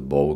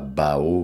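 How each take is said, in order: First: The vowel is a plain o sound. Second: The vowel is an a gliding into o. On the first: The speaker calls it right. "un espèce de bow comme ça" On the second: The speaker calls it wrong. "mais surtout pas bao parce que ça veut dire carrément autre chose"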